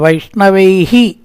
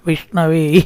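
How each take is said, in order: First: It ends with a full 'hi' syllable. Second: It ends with a faint breathy h sound. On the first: The speaker calls it wrong. "വൈഷ്ണവേഹി എന്ന് പറയരുത്" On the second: The speaker calls it right. "ഒന്നങ്ങോട്ട് വെക്കലാണ്, അതാണ് വിസർഗം"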